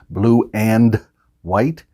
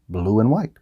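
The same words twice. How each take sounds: First: It is said slowly with a full 'and'. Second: It is said faster with 'and' reduced to n.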